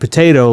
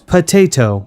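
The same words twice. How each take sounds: First: The second T is soft and relaxed. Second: The second T is crisp and over-enunciated. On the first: This is the everyday way people say it. "like we would, and kind of making that second T soft" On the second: This is an overly careful teaching style. "he says potato, and he's very concise about it"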